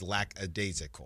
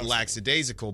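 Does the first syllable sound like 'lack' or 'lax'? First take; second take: lack; lax. First: The first syllable sounds like 'lack'. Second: The first syllable sounds like 'lax'. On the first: The speaker calls it right. "but it is lackadaisical" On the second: The speaker calls it wrong. "Almost like LAX, like lax"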